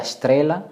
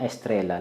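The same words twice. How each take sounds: First: Estrela said shtrela, SH for the S; SH variant. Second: Estrela with a full E and plain S; S variant. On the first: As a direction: open estrela on a SH sound. (estrela kwa sauti ya SH, shtrela) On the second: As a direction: say estrela as es-TRE-la. (estrela kwa E na S, bila SH) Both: Shown as a demonstration. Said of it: "au wengine wakasema estrela".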